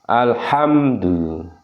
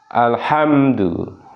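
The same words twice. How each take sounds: No difference in how they are said.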